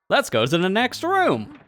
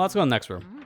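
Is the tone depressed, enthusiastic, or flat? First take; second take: enthusiastic; flat. First: It is said with lively enthusiasm. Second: It is said flatly, without much energy.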